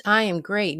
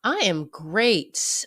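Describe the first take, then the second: First: Said in the usual way. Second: Slow drawn-out. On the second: Shown as a demonstration.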